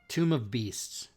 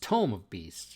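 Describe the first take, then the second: First: The first word rhymes with room. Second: The first word rhymes with home. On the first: The speaker calls it wrong. "he kept saying, Tomb of" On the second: The speaker calls it right. "and it's Tome of Beasts, right?"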